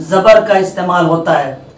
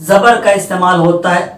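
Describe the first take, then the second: Both takes have the same delivery.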